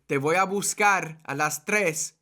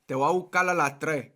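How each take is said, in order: First: It is said in a neutral Spanish accent. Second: It is said in a Puerto Rican accent. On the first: "instead of saying" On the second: "I say"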